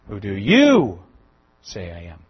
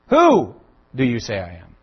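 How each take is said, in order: First: The word 'you' is stressed. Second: The word 'you' is not stressed. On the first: "The emphasis on the you" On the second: "Does it matter where I put the emphasis?"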